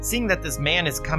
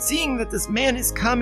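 First: It is read in the speaker's normal voice. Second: It is read in a put-on old man voice. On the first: The speaker calls it wrong. "I should have been doing an old man voice" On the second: The speaker calls it right. "Go for it"

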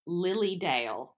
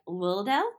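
First: The L sounds are pronounced clearly and distinctly. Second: The L sounds are slurred together indistinctly. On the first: The speaker calls it right. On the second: The speaker calls it wrong.

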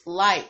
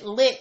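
First: The vowel is long, rhyming with 'bite'. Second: The vowel is short, rhyming with 'bit'. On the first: The speaker calls it right. "but it's actually pronounced Light" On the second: The speaker calls it wrong. "I pronounced it Lit"

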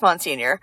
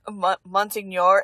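First: The word has a plain English-style pronunciation. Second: The word has an Italian-style pronunciation. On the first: The speaker calls it right. "It's pronounced Monsignor" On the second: The speaker calls it wrong. "It's probably like the Italian pronunciation of it"

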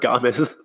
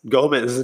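First: The name is said with an added 'a' sound. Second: The name is said without an added 'a' sound. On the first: The speaker calls it wrong. "not Gomez" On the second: The speaker calls it right. "there's no A in Gomez. It's Gomez"

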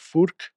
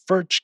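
First: The name ends with a 'k' sound. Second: The name ends with a 'ch' sound. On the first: This is how the company itself says the name. "But they pronounce it as Furk" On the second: This is how Americans say the name. "here in the States, we would pronounce it as Furch"

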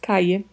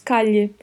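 First: The double L sounds like English y. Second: The double L sounds like Portuguese lh. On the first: "O duplo L pode ter som de I" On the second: "Pode ter som de LH"

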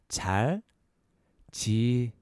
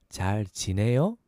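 First: It is said slowly. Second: It is said faster.

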